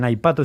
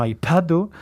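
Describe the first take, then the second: First: Said in the usual way. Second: Aipatu with a puff of h after the p; aspirated P. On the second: Shown as a demonstration. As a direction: release the p in aipatu with a burst of air. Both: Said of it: "la P la hacen con la H".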